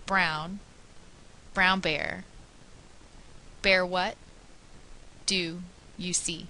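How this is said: Pauses break up the word groups awkwardly. The speaker calls it wrong. "they lack expression and chunking"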